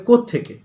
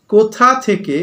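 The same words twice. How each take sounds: First: "কোত্থেকে" run together fast as one word; fast contraction. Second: Said in the usual way. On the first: Shown as a demonstration. ("কোত্থেকে" দ্রুত এক শব্দে জুড়ে বলা) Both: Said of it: "না বলে কোত্থেকে".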